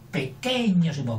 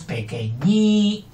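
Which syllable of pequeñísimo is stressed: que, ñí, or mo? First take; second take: que; ñí. First: The stress is on the second syllable, que. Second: The stress is on the third syllable, ñí. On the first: The speaker calls it wrong. "Si fuera sobre esdrújula sería pequeñosimo, que suena mal" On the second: The speaker calls it right. "Pero no, es pequeñísimo"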